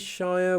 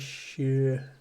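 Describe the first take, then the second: First: The word rhymes with fire. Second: The word ends in an ear sound without R. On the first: The speaker calls it wrong. "we do not say shire" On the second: The speaker calls it right. "we say shear"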